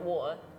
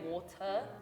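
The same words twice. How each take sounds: First: The word is said quickly and more reduced. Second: The word is said at a careful, normal pace. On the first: "if I'm speaking fast, I'll be like water" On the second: "I personally say water"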